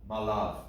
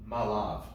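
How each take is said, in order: The two takes are said the same way.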